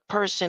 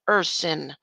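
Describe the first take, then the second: First: The word begins with a clear P sound. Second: The word begins without any P sound. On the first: The speaker calls it wrong. "It's not a person" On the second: The speaker calls it right. "the P is silent"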